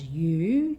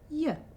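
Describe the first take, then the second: First: The word has a full oo vowel. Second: The word has a reduced schwa vowel.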